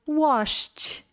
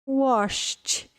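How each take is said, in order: Both takes have the same delivery.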